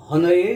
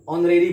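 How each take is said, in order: First: हनरेरी with an audible h in front; wrong sounded h. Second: ऑनरेरी beginning on an open o; silent h. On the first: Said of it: "हनरेरी नहीं बोलते हैं". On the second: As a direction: start ऑनरेरी on the vowel, no h. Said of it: "ऑनरेरी बोलते हैं". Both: Shown as a demonstration.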